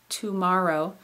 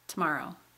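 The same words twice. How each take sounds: First: The first syllable has a full vowel. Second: The first syllable is reduced to a quick t. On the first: "instead of saying tomorrow" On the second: "we say that rapidly, and the to at the beginning becomes t"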